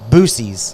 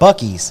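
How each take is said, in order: First: The name starts with a 'boo' sound. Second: The name starts with a 'buck' sound. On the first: The speaker calls it wrong. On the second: The speaker calls it right.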